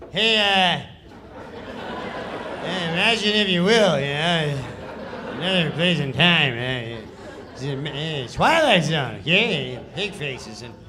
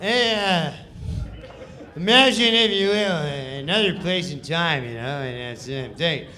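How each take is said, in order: First: Louder, offhand read with a laugh; Norm's lazy read. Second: A bit louder, offhand read; Norm's lazy read. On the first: Reading the Twilight Zone intro at the table, lazy and offhand. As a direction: toss the lines off, chuckling. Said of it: "this is how he reads the sketch". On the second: Norm live on air, lazy offhand reading. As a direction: throw the intro away casually. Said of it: "Norm Macdonald". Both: Retold or imitated.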